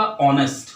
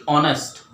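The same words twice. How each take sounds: First: ऑनेस्ट with a silent h, starting on the vowel. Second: ऑनेस्ट again with no h sound, opening on the vowel; silent h. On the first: Teacher shows students ऑनेस्ट with a silent h. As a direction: say ऑनेस्ट as aw-nest, no h. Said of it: "तो क्या उच्चारण होएगा इसका". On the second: Teacher repeats ऑनेस्ट with the finger removed, silent h. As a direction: keep ऑनेस्ट as aw-nest. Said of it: "और हटा दूँ तब भी ऑनेस्ट". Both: Shown as a demonstration.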